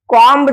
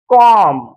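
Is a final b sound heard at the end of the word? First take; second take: yes; no. First: The word ends with an audible b sound. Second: The word ends on the m sound only. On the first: The speaker calls it wrong. "कॉम्ब जर म्हटलात तर तो pronunciation चुकीचा असणार आहे" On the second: The speaker calls it right. "योग्य उच्चार कसा आहे कॉम"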